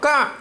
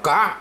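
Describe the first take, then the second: First: The syllable is said with a high tone. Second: The syllable is said with a rising tone. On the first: It is the low-class consonant letter. "เสียงตรีนะครับอักษรต่ำ" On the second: It is the high-class consonant letter. "เสียงจัตวาเนี่ยอักษรสูง"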